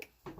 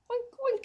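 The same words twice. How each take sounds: First: Tiny, very quiet oink; barely audible pig noise; soft pig oink. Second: High-pitched pig squeal of "Oink". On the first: Teacher has the class make the pig sound, soft oink. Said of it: "Nice and soft". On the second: Teacher prompts the class for the pig sound, high oink. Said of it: "Nice and loud". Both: Shown as a demonstration.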